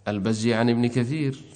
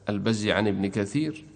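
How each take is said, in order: The two takes are said the same way.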